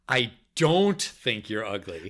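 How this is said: The word "don't" carries the emphasis. "then the second time, the second word"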